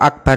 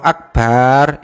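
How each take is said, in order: First: The vowel after the b is short. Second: The vowel after the b is lengthened. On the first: It means the greatest. The speaker calls it right. "kalau akbar itu maha besar" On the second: It means big drums. The speaker calls it wrong. "kalau akbar itu kendang yang besar"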